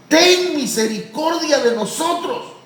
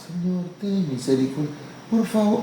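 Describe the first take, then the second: First: Higher, slow pleading cry. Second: Soft, meek little prayer; timid prayer. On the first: Preacher voicing the blind men begging Jesus, pleading cry. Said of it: "empezaron a clamar y a decir". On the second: Preacher mocking a timid believer's prayer, soft and meek. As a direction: mumble it shyly as a half-hearted plea. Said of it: "no oran como algunos". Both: Acted.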